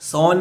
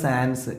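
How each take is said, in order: First: The final s is silent, nasal vowel. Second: The final s is clearly sounded. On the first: "French ഉച്ചാരണത്തിൽ" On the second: "English പിന്നെ ഉച്ചാരണമാണ് സാൻസ്"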